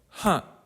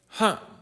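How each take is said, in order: First: It is said in a soft, dreamy way. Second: It is said in a soft, dreamy way.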